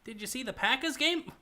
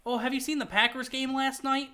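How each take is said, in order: First: A first, failed stab at a Wisconsin accent, pitched higher; bad Wisconsin accent. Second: A second go at the Wisconsin accent, higher and more committed. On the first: Streamer tries a Wisconsin accent for his friend, first attempt, botched Wisconsin accent. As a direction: fumble a Midwestern Wisconsin accent on the first try. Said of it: "Hold on, that was bad". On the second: Streamer retries the Wisconsin accent after a bad try, fuller Wisconsin accent. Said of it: "switch that on and off whenever you want". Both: Shown as a demonstration.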